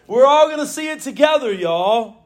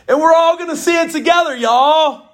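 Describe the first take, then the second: First: Southern preacher call, coming down; Southern flourish. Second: Excited Southern preacher call; Southern flourish. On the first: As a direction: hit it Southern again, settling down. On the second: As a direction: lean into the Southern y'all. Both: Acted. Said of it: "in the South".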